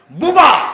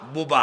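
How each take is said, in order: First: বুবা shouted high and loud; বুবা flung out loud and high; loud repeat. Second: Said in the usual way. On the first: Shown as a demonstration. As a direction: call out বুবা to the crowd. Repeats the local word.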